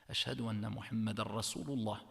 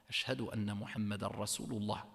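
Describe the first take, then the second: The two takes are said the same way.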